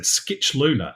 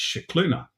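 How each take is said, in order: First: The name begins with an sk sound. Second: The name does not begin with an sk sound. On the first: The speaker calls it wrong. "it said Skitchluna" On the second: The speaker calls it right. "that's Scicluna"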